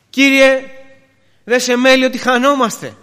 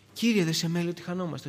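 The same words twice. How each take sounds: First: High, loud cry for help; loud, pleading protest; desperate cry. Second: Said in the usual way. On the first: Acted. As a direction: call out to the Lord as if drowning. Disciples' desperate cry, first take.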